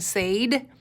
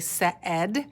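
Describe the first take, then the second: First: The vowel sounds like a long A. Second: The vowel sounds like a short E. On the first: The speaker calls it wrong. "two vowels go walking, the first one doesn't does the talking" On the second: The speaker calls it right. "So the A I makes the short E sound"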